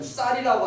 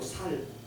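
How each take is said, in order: First: The word begins with a tense s sound. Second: The word begins with a plain s sound. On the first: "거기는 쌀을 쌀이라고 못해" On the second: "쌀이라고 하지 않고 살"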